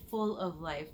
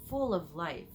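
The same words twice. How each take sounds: The two takes are said the same way.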